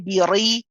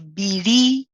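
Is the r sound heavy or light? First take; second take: heavy; light. First: The r is heavy, with the tongue back raised. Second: The r is light, with the tongue back relaxed. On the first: The speaker calls it wrong. "we don't say biri" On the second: The speaker calls it right. "the kasra is the light one"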